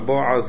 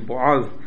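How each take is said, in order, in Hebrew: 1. המבטא נופל על ההברה הראשונה. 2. המבטא נופל על ההברה האחרונה. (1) "בועז במלעיל" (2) "אל תנסו להיות מדויקים ולהגיד בועז"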